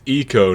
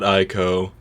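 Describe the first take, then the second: First: The first vowel sounds like 'ee'. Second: The first vowel sounds like 'eye'. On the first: The speaker calls it right. "it's eco" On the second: The speaker calls it wrong. "not ico"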